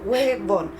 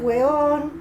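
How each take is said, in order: First: The middle b sound is clearly pronounced. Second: The middle b sound is dropped.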